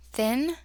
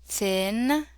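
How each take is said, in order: First: Said in the usual way. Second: "thin" drawn out, sounds run slowly together; stretched blend. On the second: Shown as a demonstration. Teacher sounding out the word, stretched "thin".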